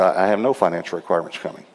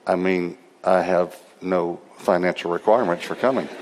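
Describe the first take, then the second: First: Fast, matter-of-fact reply; quick ready answer. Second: Low, measured, spaced-out words; careful restatement. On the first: Preacher answering a pastor about fees, quick and matter-of-fact. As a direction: rattle it off quickly. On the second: Preacher repeating himself to a confused pastor, deliberate and low. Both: Retold or imitated.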